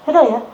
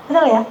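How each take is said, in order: Both takes have the same delivery.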